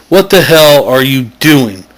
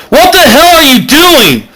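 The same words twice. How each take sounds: First: Said in the usual way. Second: High yelled question; shouting Bilbo. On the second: Acted. Bilbo yells at the chanting Mac, a high startled yell. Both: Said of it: "Bilbo yells".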